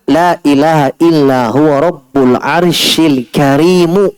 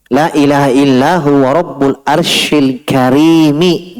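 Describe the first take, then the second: First: The last word ends with an 'oo' vowel. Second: The last word ends with an 'ee' vowel. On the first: God is the noble one, Lord of the Throne. "ada bacaan" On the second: The Throne itself is the noble one. "Al-Karim itu di kasrah"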